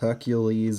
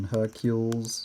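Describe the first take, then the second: First: The final e is sounded as 'ee'. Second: The final e is not sounded as 'ee'. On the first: "Hercules rather than" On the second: "rather than Hercules"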